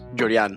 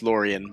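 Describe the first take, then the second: First: The name has a Cuban Spanish pronunciation. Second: The name has an American English pronunciation. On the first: This is the family's original pronunciation. "my parents are Cuban, so it's pronounced Jorian" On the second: This is how people in New York say it. "where everyone says Lorien"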